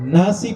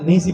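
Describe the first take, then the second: First: The first vowel is an open 'a' sound. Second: The first vowel is bent toward an 'e' sound. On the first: This is the easier reading used locally. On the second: This is a harder reading from another tradition.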